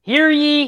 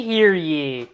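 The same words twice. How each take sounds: First: Booming town crier call. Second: Said in the usual way. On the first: Acted. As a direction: proclaim it like a herald. Opening proclamation.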